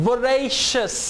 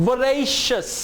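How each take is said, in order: No difference in how they are said.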